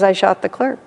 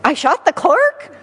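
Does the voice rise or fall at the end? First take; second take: fall; rise. First: It falls at the end like a statement. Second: It rises at the end like a question.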